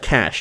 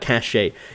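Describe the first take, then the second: First: The word sounds exactly like 'cash'. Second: The word does not sound like 'cash'. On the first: "Cache sounds like cash" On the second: "not cache. It's spelled with an E"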